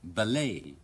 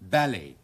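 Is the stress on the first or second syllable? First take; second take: second; first. First: The stress is on the second syllable. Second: The stress is on the first syllable. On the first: "將個重音擺喺第二個音節嗰度" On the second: "英國人嘅習慣咧就將個重音擺喺第一個音節嗰度"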